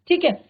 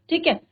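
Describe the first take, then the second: Both takes have the same delivery.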